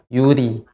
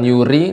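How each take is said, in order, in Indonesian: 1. Bunyi r tipis dengan getaran yang hanya sedikit. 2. Bunyi r digetarkan kuat dengan banyak getaran. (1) "lebih sedikit" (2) "masih banyak getaran ri"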